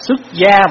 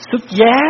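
First: The second syllable has a level tone. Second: The second syllable has a high rising tone. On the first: Leaving home to become a monk. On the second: Being married off to another family.

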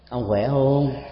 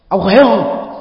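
First: It is asked in a weightier, more caring tone. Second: It is asked in a harsh, scolding tone. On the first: It shows somewhat greater concern. "nó có một cái sức trọng lực, cái sự quan tâm cao hơn chút xíu" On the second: It sounds like a rebuke. "như là một lời nạt nộ thôi"

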